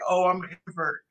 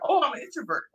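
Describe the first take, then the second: First: It is said in a negative tone. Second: It is said in a positive tone.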